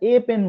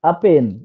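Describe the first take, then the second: First: The article is said as a full 'ay'. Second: The article is said as a short 'uh'. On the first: It stresses that this item and nothing else is needed. "আ pen না বলে আমরা এ pen বলবো" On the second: It simply counts one item without emphasis. "আ এর উচ্চারণ হচ্ছে ইউএইচ মানে আ"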